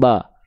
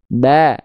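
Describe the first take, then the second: First: The a vowel sounds thick and dark. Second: The a vowel sounds thin and bright. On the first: The speaker calls it wrong. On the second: The speaker calls it right. "buka mulutnya sedikit senyum"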